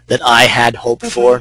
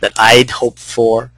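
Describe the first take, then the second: First: The word 'had' is said in full. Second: The word 'had' is contracted onto 'I'. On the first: It sounds formal. The speaker calls it wrong. "It sounds almost formal" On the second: It sounds like normal conversation. The speaker calls it right. "I did the contraction there"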